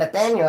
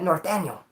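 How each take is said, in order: First: The name begins with a 'nath' sound. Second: The name begins with a 'north' sound. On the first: The speaker calls it right. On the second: The speaker calls it wrong.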